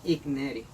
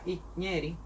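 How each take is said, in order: First: The g and n are pronounced as separate sounds. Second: The middle consonant is pronounced as a single ñ. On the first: The speaker calls it wrong. "La mayoría de las personas cuando leen esta palabra dicen Igneri. Pero eh, eso es un error" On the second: The speaker calls it right. "la G y la N suena muy parecido a la ñ"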